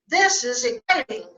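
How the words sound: It is said in an excited, lively tone.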